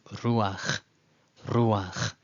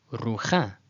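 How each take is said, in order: First: Ruach as ROO-akh, slow, ending on the guttural; reversed patach. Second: Rucha as roo-KHA, ending on an open ah; incorrect literal reading. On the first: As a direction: say ruach with ah before the final kh. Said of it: "now we know that it's reversed". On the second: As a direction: say rucha with the vowel after the guttural. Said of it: "if you read that incorrectly". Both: Shown as a demonstration.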